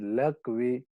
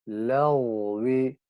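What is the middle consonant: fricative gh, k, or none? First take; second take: k; fricative gh. First: The middle consonant is a hard k. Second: The middle consonant is a throaty gh. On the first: The speaker calls it wrong. "Gayın harfine kaf sesi veriyor" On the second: The speaker calls it right. "Gayın sesine lagvi"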